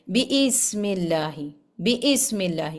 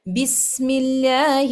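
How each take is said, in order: First: بسم with the کسرہ stretched long, biism; wrong lengthening. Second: Very slow بسم اللہ with a short i; correct recitation. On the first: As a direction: drag out the i in بسم the way people wrongly do. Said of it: "بہت سارے لوگ اس کو ایسے پڑھ دیتے ہیں". (بسم کی زیر کو لمبا کر کے غلط پڑھنا) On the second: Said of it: "مثلاً". (صحیح تجوید سے بسم اللہ) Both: Shown as a demonstration.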